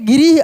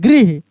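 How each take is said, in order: First: A vowel is inserted between the g and r. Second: The g and r are joined with no vowel. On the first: The speaker calls it wrong. "गिरिह अगर बोलेंगे ना तो गिरिह ऐसे होगा गी री ह" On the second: The speaker calls it right. "हम बोल रहे हैं गृह"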